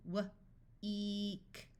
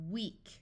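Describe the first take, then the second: First: W alone, a pause, then a long "eek"; sounded out. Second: Said in the usual way. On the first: Shown as a demonstration. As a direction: break "W-eek" into its sounds slowly. Phonics teacher sounds out, then blends.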